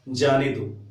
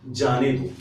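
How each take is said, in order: The two takes are said the same way.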